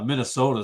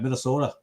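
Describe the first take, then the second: First: The word is said in a plain, neutral accent. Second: The word is said in a local Minnesotan accent.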